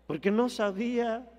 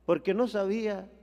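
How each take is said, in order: Both takes have the same delivery.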